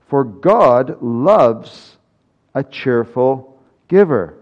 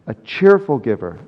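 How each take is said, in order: First: Slow, loud, weighty declaration; emphatic proclamation. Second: Said in the usual way. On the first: Acted. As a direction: proclaim it slowly, leaning on God. Preacher proclaims key verse.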